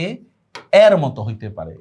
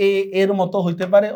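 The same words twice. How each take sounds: First: এ with the vowel of English "cat"; open AE sound. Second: এ pronounced "e", tune rising at পারে; pure E sound. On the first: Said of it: "এই দুই রকম". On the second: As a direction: say এ and এর with a close "e". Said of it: "দুই রকম". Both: Shown as a demonstration.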